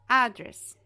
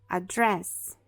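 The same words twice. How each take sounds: First: The stress is on the first syllable. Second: The stress is on the second syllable. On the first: It is a noun meaning a place where someone lives. "a gente vai colocar a primeira sílaba como a mais forte, porque ele é um noun" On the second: It is a verb. "Se ele for um verbo, então a gente vai falar address"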